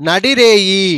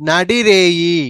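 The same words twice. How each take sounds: The two takes are said the same way.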